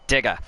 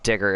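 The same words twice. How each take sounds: First: Australian "digger" ending in an open "ah"; Australian accent. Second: Said in the usual way. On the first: Shown as a demonstration. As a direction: say digger as Aussie "digga". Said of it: "Is that one of the Australian ones?". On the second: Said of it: "it's not digger, it's digger".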